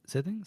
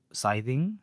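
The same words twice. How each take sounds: First: "Scything" with a short i, as in sit; high, questioning "Scything", first syllable like "sith"; alternative pronunciation. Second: "Scything" with a long i, as in sigh, drawn out; "Scything" as SIGH-thing, questioning; unsure pronunciation. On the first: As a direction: try "Scything" as SITH-ing, pitched up. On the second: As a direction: slowly query "Scything", first syllable like "sigh". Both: Real, not acted. Trying out a name's pronunciation.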